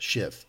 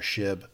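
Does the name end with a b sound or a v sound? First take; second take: v sound; b sound. First: The name ends with a v sound. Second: The name ends with a b sound. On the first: The speaker calls it right. "I will be calling her Shiv from now on" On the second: The speaker calls it wrong. "I mispronounce Shiv's name early on. I called her Shib"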